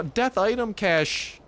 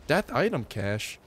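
First: Slow, high, stunned repeat; disbelieving. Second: Said in the usual way. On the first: Real, not acted. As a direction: drag it out in disbelief.

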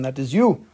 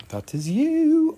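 First: Said in the usual way. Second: High, slow singsong "That is you"; playful high echo; drawn-out high repeat. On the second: Shown as a demonstration. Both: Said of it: "repeat contrast".

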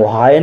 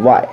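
First: "वाई" mispronounced as wa-hai, h sounded; wrongly sounded H. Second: "वाई" said as one beat, wai; silent H. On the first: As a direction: put an audible h after the w in "वाई". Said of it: "हम वाई नहीं पढ़ते हैं". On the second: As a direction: leave the h out of "वाई". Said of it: "क्या पढ़ते हैं". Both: Shown as a demonstration.

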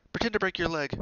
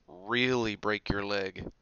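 First: High, loud bright-idea voice; urgent piece of advice; eager suggestion. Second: "Really" drawn out slowly in deadpan one-upping; slow, weighty "Really" topping the last suggestion; stress on Really. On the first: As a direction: pitch it up as a quick suggestion. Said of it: "Hermione suggested". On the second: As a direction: stretch out "Really", then finish evenly. Ron tops Hermione's suggestion. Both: A narrator's reading.

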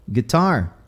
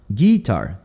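First: Said in the usual way. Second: "guitar" as GEE-tar, weight up front; stress on first syllable. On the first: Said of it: "essa sílaba tônica". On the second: Shown as a demonstration. Teacher shows the Southern shift, "guitar" stressed on GUI. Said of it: "eles vão mudando essa sílaba tônica".

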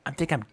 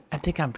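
The two takes are said the same way.

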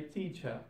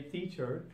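First: "teacher" said as "teachah"; ah ending. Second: "teacher" ending in an -er. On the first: Teacher showing learners Cockney British, "teacher" ending in ah. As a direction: end "teacher" on an open ah, no R. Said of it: "but in Cockney British". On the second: Teacher giving the normal English form, "teacher" ending on R. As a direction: finish "teacher" on the R. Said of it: "sound of R will turn into a sound". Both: Shown as a demonstration.

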